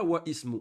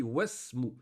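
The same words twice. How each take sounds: First: « wa ismu » avec le i de ismu prononcé à part; « wa ismu » en deux mots séparés, sans liaison; wrong form wa ismu. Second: « wasmu » lié, le i de ismu avalé; « wasmu » d'un seul souffle, sans le i; correct liaison wasmu. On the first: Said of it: "On dit pas wa ismu". (« wa ismu » dit en deux mots, la hamza prononcée) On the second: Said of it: "on dit wasmu". (« wasmu » avec liaison, hamzatul wasl muette) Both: Shown as a demonstration.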